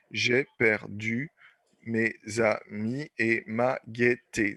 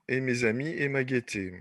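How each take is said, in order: First: Slow syllable count. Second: Said in the usual way. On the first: Shown as a demonstration. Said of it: "Dix. Décasyllabes". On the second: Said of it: "vous voyez, on va répéter le i".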